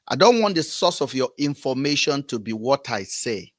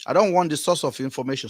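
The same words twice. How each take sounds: First: Said in the usual way. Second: Rushed, blurred by chewing gum. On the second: Real, not acted. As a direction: talk around a wad of chewing gum. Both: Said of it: "I have chewing gum in my mouth".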